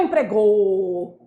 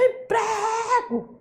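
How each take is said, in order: First: "empregou" with a long, low final GOU; wrong final stress. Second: "emprego" with PRE high and stretched; called-out stressed syllable. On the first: Teacher rejects the wrong reading, held final GOU. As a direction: drag out the last syllable of "empregou". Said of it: "Não é empregou". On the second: Teacher shows the right strong syllable, high stretched PRE. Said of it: "ela se estende no grito". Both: Shown as a demonstration.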